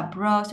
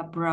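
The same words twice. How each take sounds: First: Said in the usual way. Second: "br" dropped to a soft low tone; lowered tone. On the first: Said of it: "xuống giọng là br". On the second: Shown as a demonstration. Teacher breaking down celebrity, lowered tone on "br". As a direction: let "br" fall in pitch. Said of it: "xuống giọng".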